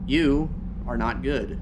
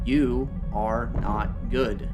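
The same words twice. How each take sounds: First: The sentence is spoken at a normal pace. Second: The sentence is spoken slowly and deliberately.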